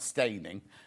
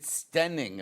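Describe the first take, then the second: First: The first vowel sounds like 'ay' in day. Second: The first vowel sounds like 'eh' in bed. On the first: The speaker calls it wrong. "not Staining" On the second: The speaker calls it right. "You might pronounce it Stenning"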